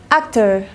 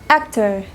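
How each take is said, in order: Both takes have the same delivery.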